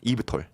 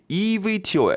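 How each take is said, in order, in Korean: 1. 이 약어는 짧은 한 단어로 읽습니다. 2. 약어의 글자를 하나하나 읽습니다. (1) "저는 이브톨, 이브톨이라 말하겠습니다" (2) "이거 상당히 발음하기가 어렵더라고요"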